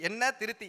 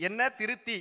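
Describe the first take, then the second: Both takes have the same delivery.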